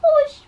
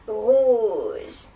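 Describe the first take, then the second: First: It is said in a squeaky mouse voice. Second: It is said in an evil witch voice.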